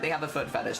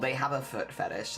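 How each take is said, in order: First: It is said in a flat, matter-of-fact tone. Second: It is said in a mocking, judging tone. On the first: The speaker simply reports a fact. "that's just stating a fact" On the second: The speaker looks down on the person. "then that's kind of shaming"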